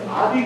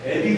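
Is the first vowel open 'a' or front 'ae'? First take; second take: open 'a'; front 'ae'. First: The first vowel is an open 'a' sound. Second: The first vowel is a fronted 'ae' sound. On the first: People do not actually say it this way. The speaker calls it wrong. "우리가 아비 그러지 않잖아요" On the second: This is how people actually say it. The speaker calls it right. "애비 그러잖아요"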